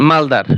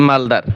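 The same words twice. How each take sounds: The two takes are said the same way.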